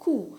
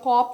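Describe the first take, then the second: First: It has an oo vowel and no p. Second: It has an aw vowel and a final p. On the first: The speaker calls it right. "बल्कि ये simply कू, like सून में" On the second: The speaker calls it wrong. "ये कोप या कॉप नहीं होता"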